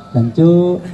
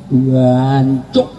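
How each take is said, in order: First: Said in the usual way. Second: Drawn-out mock curse, rising at the end; East Javanese cursing. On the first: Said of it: "Nggak ada orang marah kok". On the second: Shown as a demonstration. Showing East Javanese anger, hammed-up rising curse. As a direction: swear with relish, ending on an upswing. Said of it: "Apalagi Jawa Timur".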